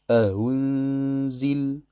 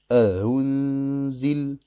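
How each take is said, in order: No difference in how they are said.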